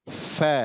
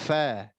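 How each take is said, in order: No difference in how they are said.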